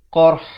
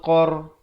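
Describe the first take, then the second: First: The word ends with r then h. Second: The word ends with r and no h. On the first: The speaker calls it right. "Dia ra kena ada dan ha sebahagian" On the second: The speaker calls it wrong. "Kalau kita bunyi asabahumul qar, ha tak ada"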